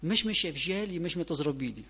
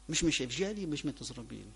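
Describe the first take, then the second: First: "Myśmy" hit hard, pitch jumping up on "my"; stress on my. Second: "Myśmy" repeated with a lighter lift on "my", trailing down; stress on my. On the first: Preacher quoting the first president, stress on "my". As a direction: punch the "my" in "Myśmy" like a proud president. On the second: Preacher repeating the saying, stressing "my". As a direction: echo the saying, leaning on "my". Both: Retold or imitated. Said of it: "on miał takie powiedzenie".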